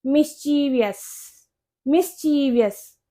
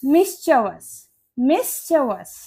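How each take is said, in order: First: मिस्चीवियस as mis-CHEE-vee-us, four syllables; common mispronunciation. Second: मिस्चीवियस as MIS-chuh-vus, three syllables; correct pronunciation. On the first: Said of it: "ज्यादातर इसको मिस्चीवियस बोलते हैं". (मिस्चीवियस में लंबा 'ची', फिर 'वियस') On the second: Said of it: "इसकी correct pronunciation होती है". (मिस्चीवियस को 'मिस-च-वस' बोलें) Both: Shown as a demonstration.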